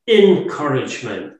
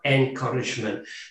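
First: The word begins with an 'in' sound. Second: The word begins with an 'en' sound. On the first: Courage is put right into someone's greatest fear. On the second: Someone is given a general morale boost. "not encouragement"

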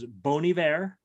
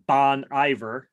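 First: The name is pronounced the French way. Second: The name is pronounced the anglicized local way.

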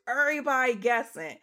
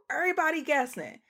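First: It is said in an exaggerated put-on voice. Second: It is said in the speaker's normal voice.

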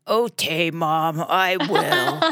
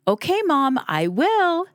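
First: It is said in a husky, grumpy voice. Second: It is said in a clear, pleasant voice.

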